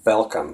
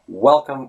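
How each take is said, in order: First: The word begins with a v sound. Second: The word begins with a w sound. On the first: The speaker calls it wrong. "we'd be saying v" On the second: The speaker calls it right. "instead of the w sound"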